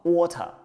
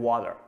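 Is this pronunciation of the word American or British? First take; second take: British; American. First: It is said with a British accent. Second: It is said with an American accent. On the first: "如果你要读英音，一般叫什么water" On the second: "如果你要读美音，那就说water"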